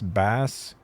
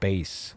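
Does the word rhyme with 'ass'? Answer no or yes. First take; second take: yes; no. First: The vowel rhymes with the word ass. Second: The vowel does not rhyme with ass. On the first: This is the name's actual pronunciation. The speaker calls it right. "I'm glad it's pronounced Bass" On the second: This is not how the name is pronounced. The speaker calls it wrong. "and not Bass"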